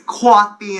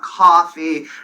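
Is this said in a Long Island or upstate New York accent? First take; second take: Long Island; upstate. First: It is said with a Long Island accent. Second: It is said with an upstate New York accent. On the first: "I'd say coffee" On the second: "instead of"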